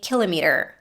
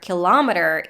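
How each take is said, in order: First: It is said with a British pronunciation. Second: It is said with an American pronunciation. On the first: "Brits will say kilometer" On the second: "kilometer is definitely an American way to say this word"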